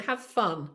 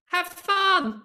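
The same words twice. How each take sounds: First: Said in the usual way. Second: Excited. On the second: Real, not acted. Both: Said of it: "My last point, have fun".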